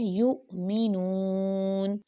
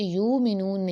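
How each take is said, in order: First: The middle is said with an abrupt catch. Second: The middle is said smoothly without a catch. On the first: The speaker calls it right. "झटका देकर पढ़ना है" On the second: The speaker calls it wrong. "इसे यू मीनून नहीं पढ़ना"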